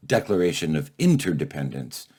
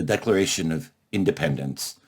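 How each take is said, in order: First: "interdependence" set apart with weight on its first syllable; stress on interdependence. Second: Said in the usual way. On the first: Real, not acted. Contrasts new title with original.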